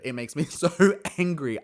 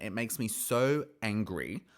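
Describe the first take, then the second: First: Louder and higher, heated with a laugh; half-laughing real frustration; getting heated. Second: Said in the usual way. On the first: Real, not acted. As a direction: boil over on the word angry. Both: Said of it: "I'm just getting heated".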